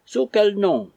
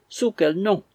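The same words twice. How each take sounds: First: Much higher, louder, stress on quel; wife crying out at Barry; shrill cry. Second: Higher, louder, stress on Sous, rising at the end; wife repeating her cry, insisting; crying out again. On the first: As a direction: demand Sous quel nom with quel hit hardest. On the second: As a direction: press Sous quel nom with Sous hit and a rising tune. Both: A narrator's reading. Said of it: "cria Missus Fitzsimons".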